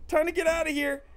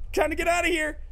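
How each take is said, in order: Both takes have the same delivery.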